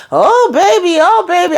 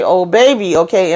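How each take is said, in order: First: Mock lovers' moan, pitched way up. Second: Said in the usual way. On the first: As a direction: parody the couple moaning in a high falsetto. Imitating couple moaning on show. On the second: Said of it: "every time y'all say".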